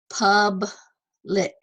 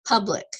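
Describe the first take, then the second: First: "public" as two parts with a clear gap; teacher sounding out "public" by syllable; split into syllables. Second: Said in the usual way. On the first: Shown as a demonstration. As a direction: say "public" slowly, pausing after the first syllable. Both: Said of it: "you would separate that".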